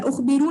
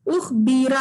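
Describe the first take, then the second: First: उखबिरु wrongly ending in "-u"; mistaken final "-u". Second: उखबीरा with long "ee", ending in "-a"; correct final "-a". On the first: Teacher quoting students' mistake, उखबिरु with final "-u". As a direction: finish उखबिरु on "oo" instead of "a". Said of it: "कुछ लोग उखबिरु कह रहे थे". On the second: Teacher correcting students' word ending, उखबीरा with final "-a". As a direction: end उखबीरा on an open "a". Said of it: "उखबिरु नहीं है". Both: Shown as a demonstration.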